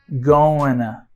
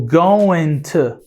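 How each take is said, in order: First: The t is dropped and merges into the n. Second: Both words are said with a clear t sound. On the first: "o T é neutralizado" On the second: "ao invés de falar going to"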